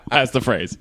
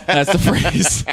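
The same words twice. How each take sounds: First: Said in the usual way. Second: Knowing emphasis. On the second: Shown as a demonstration.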